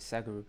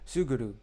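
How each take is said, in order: First: The first vowel sounds like 'ah'. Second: The first vowel sounds like 'oo'. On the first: The speaker calls it wrong. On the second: The speaker calls it right.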